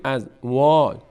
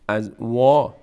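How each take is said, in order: No difference in how they are said.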